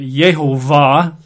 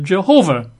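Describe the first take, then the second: First: The word begins with a Y sound. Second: The word begins with a J sound. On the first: "aren't comfortable with the J sound, they pronounce it Yehovah" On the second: "in English, for centuries, we've called it Jehovah"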